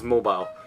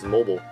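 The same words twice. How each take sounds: First: It is said the British way. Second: It is said the American way. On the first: "in the U K, it's almost always mobile" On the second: "most commonly used in the United States is mobile"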